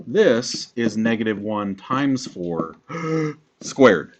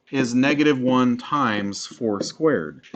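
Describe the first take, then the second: First: Slow, long break after "four", then "squared" alone; group up to "four", pause, then "squared"; pause before squared. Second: Slow, "four squared" run together as one group; no pause before squared. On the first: Teacher showing how parentheses group it, pause before "squared". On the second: Teacher showing how a calculator groups it, "four squared" joined. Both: Shown as a demonstration. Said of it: "If I put a pause in a different place".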